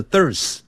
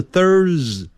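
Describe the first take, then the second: First: "Thurs" without the r-coloured vowel; the Thurs to avoid; wrong Thurs. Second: "Thurs" with an r-coloured vowel; right Thurs. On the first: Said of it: "不是Thurs". (错误的Thurs) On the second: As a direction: show the correct Thurs. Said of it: "都是Thurs". (正确的Thurs) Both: Shown as a demonstration.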